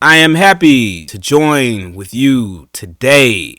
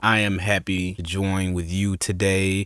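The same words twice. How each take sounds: First: It is forceful, with long pauses and stressed words. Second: It is slow and measured but fairly mild. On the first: The speaker calls it right. "It was a lot more powerful than that too" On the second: The speaker calls it wrong. "He's taking his time, every word, and it's all very impactful"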